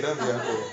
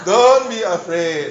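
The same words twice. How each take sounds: First: Soft comfort. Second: Gentle comfort. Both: Acted. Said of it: "repeats comfort".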